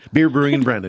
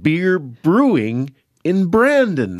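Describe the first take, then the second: First: It is said quickly. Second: It is said at a normal speed.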